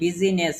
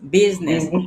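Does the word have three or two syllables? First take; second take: three; two. First: The middle vowel is sounded, giving three syllables. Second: The middle vowel is dropped, giving two syllables. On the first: The speaker calls it wrong. "আমরা কি এটাকে বলি বিজিনেস?" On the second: The speaker calls it right. "আয়ের উচ্চারণ হয় না"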